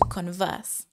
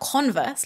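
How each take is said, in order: First: It is pronounced like the verb to converse. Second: It is pronounced like the shoe brand name. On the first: It means to talk with someone. The speaker calls it right. "but to converse" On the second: It names the brand of shoes. The speaker calls it wrong. "Not converse like the shoes"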